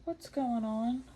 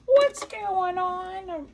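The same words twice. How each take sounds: First: Said in the usual way. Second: High, loud, drawn-out cry of dismay; exasperated surprise. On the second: Real, not acted. Quilter to her sewing machine, loudly dismayed. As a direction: wail it slowly, higher and louder. Repeats it louder as bobbin fails.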